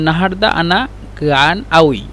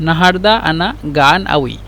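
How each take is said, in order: No difference in how they are said.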